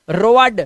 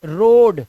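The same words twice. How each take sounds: First: "रोड" misread slowly as ro-ad; wrong pronunciation. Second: "रोड" loud, with one long O; correct pronunciation. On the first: Teacher shows "रोड" misread as ro-ad, wrong pronunciation. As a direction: split "रोड" into O plus A. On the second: Teacher models "रोड" for OA, correct pronunciation. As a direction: say "रोड" as a single syllable, rohd. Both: Shown as a demonstration. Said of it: "रोड नहीं".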